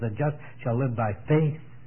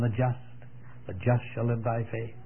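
First: The word faith carries the stress. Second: The word just carries the stress. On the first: "puts the emphasis on the faith" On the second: "put the emphasis on the just"

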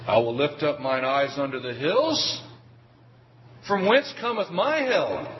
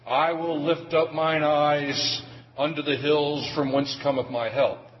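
First: It breaks after 'hills', then asks a question. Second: It runs on as one continuous statement. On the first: Help does not come from the hills but from elsewhere. The speaker calls it right. "Not like that" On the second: Help comes from the hills. The speaker calls it wrong. "the reading may not so much be"

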